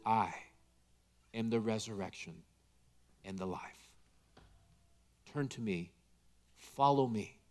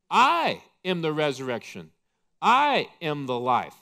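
First: Much softer and lower, gentle; tender hush. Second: Proclaiming loudly. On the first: Jesus gently comforting the grieving, soft tender hush. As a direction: lean in close like a hand on the shoulder. Taps us on the shoulder. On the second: Jesus loudly declaring himself to Martha, proclaiming. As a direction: ring it out louder, each I hit hard. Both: Acted.

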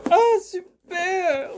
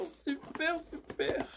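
First: Higher, louder, slow drawn-out "super"; excited slow cheer. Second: Much softer, whispered "super, super"; whispered repeat. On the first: Vlogger unboxing a find she likes, slow excited cheer. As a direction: savour the word with delight. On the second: Vlogger savouring her find, fading whispered repeat. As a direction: let the word fade to a breath. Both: Real, not acted.

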